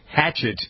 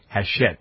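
First: The name sounds like the English word hatchet. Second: The name is said French-style, like ah-shet. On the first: The speaker calls it wrong. "I don't think that's it" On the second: The speaker calls it right. "it's Hachette probably"

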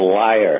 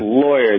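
First: The word is squeezed into two syllables, like 'liar'. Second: The word is said fully with the 'law' vowel. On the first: The speaker calls it wrong. "my grandmother could never pronounce the word lawyer" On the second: The speaker calls it right. "that's lawyer"

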